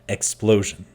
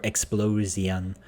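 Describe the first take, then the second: First: Only one syllable carries the stress. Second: Every syllable gets equal heavy stress. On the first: The speaker calls it right. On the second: The speaker calls it wrong.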